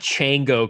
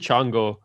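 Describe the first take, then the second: First: The name is said with a plain anglicized pronunciation. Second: The name is said with a more Spanish-like pronunciation. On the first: The speaker calls it wrong. "It's so the whitest pronunciation. It's definitely not Chango Club" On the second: The speaker calls it right. "it's probably Chango"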